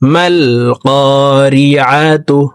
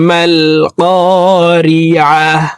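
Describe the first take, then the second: First: The word ends with a 'tu' sound. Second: The word ends with a silent-vowel 'h' sound.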